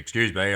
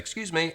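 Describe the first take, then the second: First: The voice is pitched lower and rougher. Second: The voice is pitched higher and softer. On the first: The speaker sounds like a rough bloke from the pub. "I know my voice can be" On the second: The speaker seems harmless and puts her at ease. "I actually like raise my tonality"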